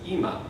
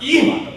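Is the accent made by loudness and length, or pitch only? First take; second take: pitch; loudness. First: Only the pitch changes between syllables. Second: One syllable is made louder and longer. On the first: The speaker calls it right. "The only thing that's different is ima" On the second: The speaker calls it wrong. "I don't say that. I'm not getting louder or longer"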